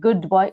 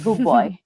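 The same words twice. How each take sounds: First: The d is pronounced separately before the b. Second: The d blends into the following b. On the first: The speaker calls it wrong. "Not good boy" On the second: The speaker calls it right. "It's good boy"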